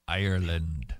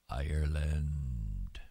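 First: Said in the usual way. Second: Ireland whispered slowly, lower, no voice. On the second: Real, not acted. Lamenting the country, a slow sad whisper. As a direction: breathe the word Ireland out in a whisper.

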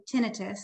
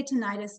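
First: "tinnitus" as TIN-ih-tus, stressed on first syllable; providers' pronunciation. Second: "tinnitus" as tih-NYE-tus, stressed on middle syllable; accepted alternative pronunciation. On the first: Audiologist showing providers' usual form, "tinnitus" as TIN-ih-tus. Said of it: "more healthcare providers". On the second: Audiologist reassuring audience about other form, "tinnitus" as tih-NYE-tus. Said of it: "you're correct as well". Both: Shown as a demonstration.

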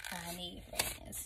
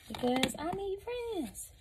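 First: Soft, slow, mock-forlorn repeat; quiet slow sulk. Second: High, slow, whiny plea for friends; high pleading whine. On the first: Repeating the plea, subdued. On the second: Pretend. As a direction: stretch it out high and needy. Begging viewers to subscribe.

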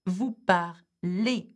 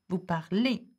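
First: "Vous parlez" drawn out slowly and clearly; slow model. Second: Said in the usual way. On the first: Shown as a demonstration. Teacher modelling the vous form for students, slowly. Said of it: "teacher modelling the vous form". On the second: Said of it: "teacher repeating the vous form".

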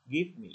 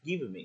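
First: "Give me" with a brief v straight into m; no vowel between "Give" and "me"; natural linking. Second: "Give me" said "give-uh me"; extra "vuh". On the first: Teacher showing it's simple, "Give me" linked cleanly. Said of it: "thế thôi". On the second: Teacher mimicking the unnatural version, "Give me" with added vuh. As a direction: put a small vowel between "Give" and "me". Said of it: "Nghe là cái vừ vừ nhẹ đấy". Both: Shown as a demonstration.

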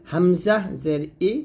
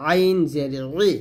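First: ই with a clean glottal start; light hamza. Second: ই squeezed in mid-throat; pressed ain. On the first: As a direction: say ই open, no squeeze. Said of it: "কণ্ঠনালীর শুরু থেকে". (হালকা করে ই) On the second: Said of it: "চাপ দিয়ে". (চাপ দিয়ে ই) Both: Shown as a demonstration.

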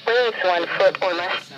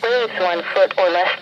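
No difference in how they are said.

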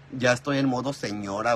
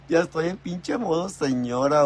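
First: Said in the usual way. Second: Higher and louder on "Ya estoy en pinche modo señora", leaning into "pinche"; half-laughing confession; emphatic repeat. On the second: Real, not acted. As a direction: say it again with a laughing punch.

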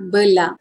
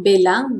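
First: "belang" with a schwa first; "belang" with weak first vowel; corrected Malay pronunciation. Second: "belang" with a clear E; wrong "belang", full first vowel; mispronounced Malay word. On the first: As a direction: say "belang" as buh-lang. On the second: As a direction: say "belang" as bay-lang. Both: Shown as a demonstration. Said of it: "Not belang, but belang".

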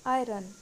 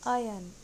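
First: आयरन with the R sounded, louder; wrong pronunciation. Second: आयन with no R, "aa-yun"; correct pronunciation. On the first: Teacher showing a common mistake, आयरन with spoken R. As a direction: say आयरन as "aay-run". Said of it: "ये भी गलत है". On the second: Teacher demonstrating the correct word, आयन without R. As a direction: say आयन firmly, R dropped. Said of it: "सही pronunciation है". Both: Shown as a demonstration.

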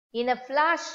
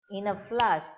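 First: "In a flash" lifted high and louder, rising at the end; emphatic. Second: Said in the usual way. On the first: A narrator's reading. Teacher telling children the story, "In a flash" punched high. Storyteller stressing sudden moment.

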